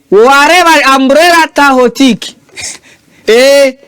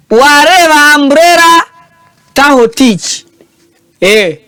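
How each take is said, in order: Both takes have the same delivery.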